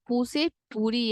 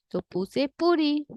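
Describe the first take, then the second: First: Said in the usual way. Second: पूरी stressed with a slower pace; teacher recap; emphatic recap. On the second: Shown as a demonstration.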